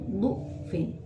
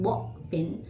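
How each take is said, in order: First: The first vowel sounds like 'u'. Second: The first vowel sounds like 'a'. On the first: "boleh dibaca dhammah" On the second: "boleh dibaca fathah"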